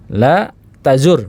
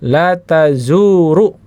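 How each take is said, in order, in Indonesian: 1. Kata kerjanya berakhir pada konsonan r. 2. Kata kerjanya berakhir dengan tambahan vokal u. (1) "ro-nya su sukun" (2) "ro-nya masih domah"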